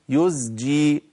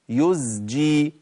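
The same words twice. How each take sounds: Both takes have the same delivery.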